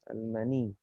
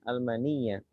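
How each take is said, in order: First: The word ends on a plain 'i' sound. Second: The word ends with a doubled 'y' and 'a'. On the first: "cara bacanya seperti itu" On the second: "Ya-nya ini sebenarnya dibaca dibaca fathah ya"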